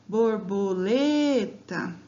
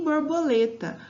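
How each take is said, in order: First: "Borboleta" slowly, with LE held long; drawn-out "Borboleta", weight on LE; calling the word out. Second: Said in the usual way. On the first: Shown as a demonstration. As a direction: call out "Borboleta", stretching the stressed LE. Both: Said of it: "vocês podem chamar a palavra".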